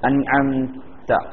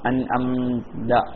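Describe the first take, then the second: First: The final consonant is a breathy t sound. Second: The final consonant is a voiced d sound. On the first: The speaker calls it right. "ശ്രദ്ധിച്ചാൽ അത് മാറ്റിയെടുക്കാൻ പറ്റും" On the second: The speaker calls it wrong. "ചിലയിടത്തൊക്കെ എന്താവും?"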